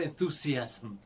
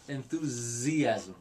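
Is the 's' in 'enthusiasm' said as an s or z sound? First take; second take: s; z. First: The middle consonant is a hissing s sound. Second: The middle consonant is a buzzing z sound. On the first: The speaker calls it wrong. "It's not enthusiasm" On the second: The speaker calls it right. "The S makes the Z sound"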